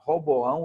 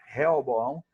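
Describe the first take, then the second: First: The name begins with the syllable 'Ro'. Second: The name begins with the syllables 'Re-o'. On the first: One Bible translation uses this form. "Um chama Roboão" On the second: Another Bible translation uses this form. "outro chama Reoboão"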